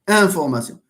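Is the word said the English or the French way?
French. The word is said with a French pronunciation. "فرنش عندها ستريس على انتي بينالتيمات"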